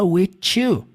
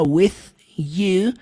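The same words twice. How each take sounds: First: The word ends in a hard t sound. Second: The word ends in a soft th sound. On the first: "Literalmente com um som de T" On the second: "Ao invés de falar with you"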